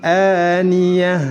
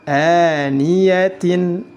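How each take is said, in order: First: The word ends in a soft h. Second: The word ends in tin. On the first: The speaker calls it right. "tetap dibaca sukun dan dirubah menjadi huruf ha" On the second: The speaker calls it wrong. "Tidak boleh dibaca"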